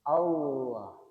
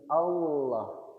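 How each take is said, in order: First: The middle consonant is a clear, heavy L. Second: The same.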